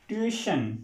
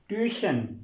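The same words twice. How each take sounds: Both takes have the same delivery.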